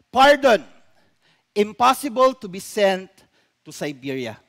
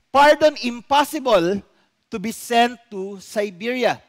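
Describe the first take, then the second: First: The pause comes after the word pardon. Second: The pause comes after the word impossible. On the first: The prisoner is pardoned and not sent to Siberia. "the altered message says, ... nilagay po dun sa unahan ng salitang pardon" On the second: The pardon is refused and the prisoner goes to Siberia. "Ano pong sabi ng una?"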